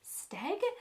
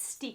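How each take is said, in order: First: The name is said hesitantly and unsure. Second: The name is said plainly and confidently. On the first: The speaker was not sure how to say it. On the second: The speaker now knows how to say it.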